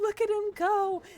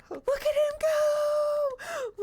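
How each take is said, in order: First: Higher, louder cheer; raised pet voice; high coo. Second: Very high, drawn-out cheer; squealing slow coo. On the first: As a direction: cheer the little runner. Cheering on the hamster. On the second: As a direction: squeal with delight as he runs. Cheering on the running hamster. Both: Real, not acted.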